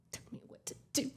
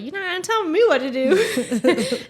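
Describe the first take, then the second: First: Whispered mock retort; hushed defiance. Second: High, louder sassy retort; hammed-up refusal to be bossed; mock defiance. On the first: Fiancee defying the warning, whispered mock defiance. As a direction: mouth off under the breath, whispering. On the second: Fiancee told not to ride bike, mock defiance.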